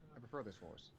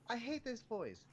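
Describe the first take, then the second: First: It is said in a lower natural voice. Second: It is said in a higher retail voice.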